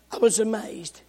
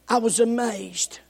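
Both takes have the same delivery.

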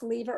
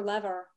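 First: "lever" as LEE-ver; long-ee pronunciation. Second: "lever" as LEV-er; short-e pronunciation. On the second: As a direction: say "lever" to rhyme with never. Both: Shown as a demonstration. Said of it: "Is it pronounced lever or lever?".

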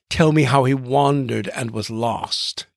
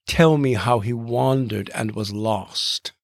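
First: Said in the usual way. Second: Slow, with the iambic beat brought out in "Tell me how he wandered and was lost"; rhythmic reading. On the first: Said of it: "Emily Wilson's, uh, recent celebrated translation". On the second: Shown as a demonstration. Host rereads Wilson's line slowly so listeners feel its iambic beat. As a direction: lean into each stressed syllable of "wandered" and "lost" slowly. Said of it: "the rhythm is just going to sort of sink into your mind".

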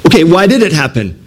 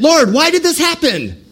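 First: Said in the usual way. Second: High pleading cry to heaven; crying out to God. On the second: Acted. Israelites crying out to the Lord, high pleading wail. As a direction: wail it up to the Lord, much higher. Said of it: "they're crying out to Lord".

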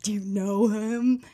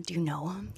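First: "know" drawn out with weight; slow down and lean hard on "know"; slow, pointed question stretching "know"; stress on KNOW. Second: Said in the usual way. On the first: Retold or imitated. Repeats the question for emphasis.

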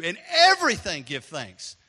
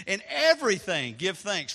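First: Slow, louder, stress on everything; emphatic. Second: Said in the usual way. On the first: Shown as a demonstration. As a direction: lean on "everything" slowly and loudly. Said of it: "repeats the verse with emphasis". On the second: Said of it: "same verse said first".

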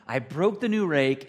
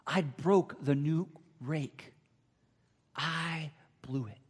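First: Loud, slow, stricken; panicked child. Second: Slow, broken, near tears; tearful child. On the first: Boy panicking over the rake he just broke, loud and slow. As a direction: blurt out the disaster. Same words panicked, then tearful. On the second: Boy sobbing alone over the broken rake, slow and tearful. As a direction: let the guilt slow every word. Boy weeping in his bedroom. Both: Retold or imitated.

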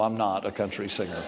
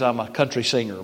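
First: "I'm not a country singer" said softly and low, taking the joke back; quiet denial. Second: Said in the usual way. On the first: Real, not acted. Preacher taking back his country-singer joke, softly and low. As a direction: drop the voice to take back the joke. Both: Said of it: "but no".

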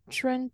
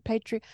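First: Patron, said PAY-trun like the word for a customer. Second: Patreon, said PAY-tree-on with three syllables. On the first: Co-host testing the word patron, said PAY-trun. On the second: Co-host fixing the site name Patreon, said PAY-tree-on. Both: Shown as a demonstration.

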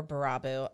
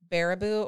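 First: Baraboo said as buh-RAH-boo; alternative pronunciation. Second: Baraboo said as BAIR-uh-boo; first pronunciation option. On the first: Host offers Wisconsinites another version, Baraboo stressed mid-word. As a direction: stress the middle syllable of Baraboo. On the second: Host unsure of the Wisconsin town, Baraboo stressed up front. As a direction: stress the opening syllable of Baraboo. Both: Shown as a demonstration. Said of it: "I'm not sure".

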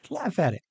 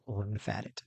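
First: Breaking into a laugh on the words; laugh, then say it brightly; laughing second take. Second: Soft, low murmur of the words; hushed first take; quiet. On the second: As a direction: say it softly to yourself, almost under the breath. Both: Shown as a demonstration.

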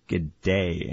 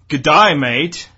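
First: Australian accent. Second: Slow, loud attempt at an Australian accent; a bad Australian accent, drawn out; mock Australian greeting. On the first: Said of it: "don't have the ear for accents". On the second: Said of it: "I only can do Rupert". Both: Shown as a demonstration.

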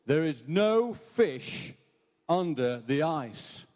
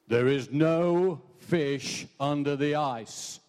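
First: Slow, drawn-out voice from nowhere; mysterious voice. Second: Slow, booming voice from nowhere; mysterious voice. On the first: Preacher's joke, the hidden voice repeating itself slowly. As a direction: intone each word slowly, unseen. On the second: Joke teller voicing the hidden voice, slow and eerie. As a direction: intone it slowly like an unseen presence. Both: Acted. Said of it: "he hears this voice saying".

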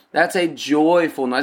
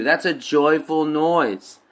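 First: Said in the usual way. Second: "That's a joyful noise." slow, each word weighted; stress on joyful noise. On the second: Shown as a demonstration. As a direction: lean slowly on "a joyful noise".

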